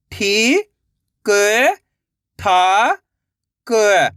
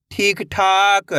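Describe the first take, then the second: First: ठी, क, ठा, क held, with gaps; syllable by syllable. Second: ठीक ठाक joined and slow; blended word. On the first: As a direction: sound out ठी, क, ठा, क one by one. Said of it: "एक एक अक्षर का उच्चारण करके". (ठी, क, ठा, क अलग-अलग) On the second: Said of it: "तो मिलके बन जाएगा". (ठीक ठाक मिलाकर, धीरे से) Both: Shown as a demonstration.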